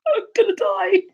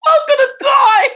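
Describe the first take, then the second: First: High, loud panicked cry; hammed-up fright, high and loud; mock terror. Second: Much higher, louder crying shout; hammed-up terrified wail, very high and loud; panicked scream. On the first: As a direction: squeal in mock terror of death. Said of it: "And I just went". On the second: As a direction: shriek it like the end has come. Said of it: "That's how I felt".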